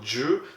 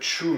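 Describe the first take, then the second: First: The word begins with a voiced j sound. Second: The word begins with a voiceless ch sound. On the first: The speaker calls it right. "mais plutôt Ju ... ça se lit plutôt comme un, un J" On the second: The speaker calls it wrong. "ça se lit pas ici euh, Chu"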